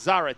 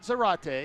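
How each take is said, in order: First: The name is said not rhyming with karate. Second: The name is said to rhyme with karate. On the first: The speaker calls it right. "It's Zarate" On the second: The speaker calls it wrong. "Not Zarate. Which rhymes with karate"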